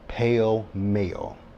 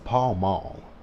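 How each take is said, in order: First: The vowels sound like 'pale male', Texas style. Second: The vowels sound like 'Paul Mall', as spelled. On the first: "as people say here in Texas" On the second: "That says Paul Mall"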